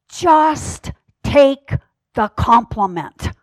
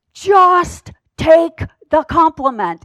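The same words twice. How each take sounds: First: Plain. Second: Higher, louder, slow and firm; firm insistence. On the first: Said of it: "very sweetly, well, I wouldn't say sweetly". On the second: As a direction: press it home, no nonsense. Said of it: "well, I wouldn't say sweetly". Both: Retold or imitated.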